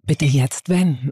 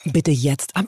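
First: Tief, sehr langsam und gedehnt; Navi-Stimme. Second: Etwas tiefer, ruhige Navi-Ansage; Navi-Stimme. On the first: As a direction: lies die Anweisung gemächlich wie ein Navi vor. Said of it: "Okay, mach nochmal". (tiefe, gedehnte Navi-Ansage) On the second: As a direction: sag es wie ein Navigationssystem. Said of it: "Kannst du mal sowas sagen wie „Wenden, bitte". (ruhige Navi-Ansage) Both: Pretend.

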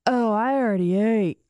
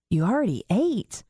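First: "Oh, I already ate" slightly slurred. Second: Said in the usual way. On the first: Retold or imitated. Stoned dad answering about breakfast, slurring "Oh, I already ate". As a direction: run "Oh, I already ate" loosely together, as if stoned. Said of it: "And now he's slurring". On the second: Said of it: "And I said".

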